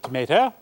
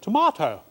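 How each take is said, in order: First: It is said the American way, 'to-MAY-to'. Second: It is said the English way, 'to-MAH-to'.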